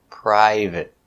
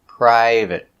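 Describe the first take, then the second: The two takes are said the same way.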